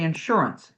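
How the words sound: It is said in a Midwestern accent. "here in the Midwest we might say"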